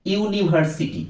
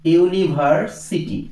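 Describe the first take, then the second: First: Said in the usual way. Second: university drawn out slowly, syllable by syllable; slow teacher demo. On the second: Shown as a demonstration. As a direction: stretch university out for students to hear the opening 'yu'. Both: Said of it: "আবার দেখো".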